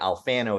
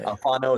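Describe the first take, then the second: First: The name is said the Southern US way. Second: The name is said the Italian way.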